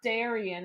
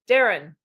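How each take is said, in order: First: The name is said with three syllables. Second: The name is said with two syllables. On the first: The speaker calls it wrong. "It's not Darian" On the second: The speaker calls it right. "it's Darren"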